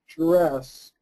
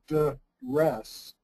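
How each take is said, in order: First: The word begins with a j-like sound. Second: The word begins with a plain d sound. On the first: The speaker calls it right. "you are not making the, the D sound" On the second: The speaker calls it wrong. "We do not say dress"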